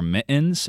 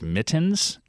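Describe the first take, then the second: First: The t is replaced by a glottal stop. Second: The t is fully pronounced. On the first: "you wear mittens instead of mittens" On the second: "instead of mittens"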